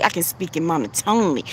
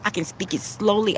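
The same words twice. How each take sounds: First: Flat-pitched demo take with little tune; mild monotone read. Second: A softer, unhurried demo take; mild slow delivery; slowly. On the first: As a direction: hold one level note through "monotonely". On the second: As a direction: ease off and draw it out a little. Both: Shown as a demonstration.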